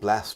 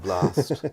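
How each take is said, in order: First: The vowel is short and flat, northern style. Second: The vowel is long and broad, southern style. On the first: "you don't southernize words" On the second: "rather than"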